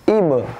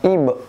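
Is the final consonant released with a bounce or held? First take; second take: bounced; held. First: The final consonant is released with a bounce. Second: The final consonant is slightly held back. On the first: The speaker calls it right. "di sini ibe" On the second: The speaker calls it wrong. "bukan ibe"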